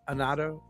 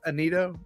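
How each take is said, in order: First: The middle syllable sounds like 'nah'. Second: The middle syllable sounds like 'nee'. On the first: The speaker calls it wrong. "not Anato" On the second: The speaker calls it right. "I think I'm saying Anito is right"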